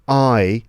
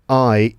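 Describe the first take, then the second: No difference in how they are said.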